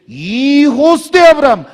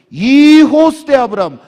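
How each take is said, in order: Both takes have the same delivery.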